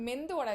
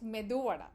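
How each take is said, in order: First: The first word has an n before the d. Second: The first word has no n before the d. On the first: The speaker calls it wrong. "it's not mendu vada" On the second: The speaker calls it right. "it's just medu vada"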